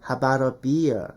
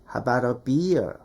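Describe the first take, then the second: No difference in how they are said.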